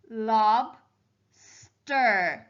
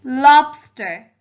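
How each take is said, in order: First: "lob, stir" as two beats with a pause; split into syllables. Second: Said in the usual way. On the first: Shown as a demonstration. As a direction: break the word into "lob, stir". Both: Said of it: "using the syllables to help me".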